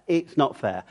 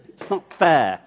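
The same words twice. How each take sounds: First: Mild whinge. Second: Put-on childish tantrum.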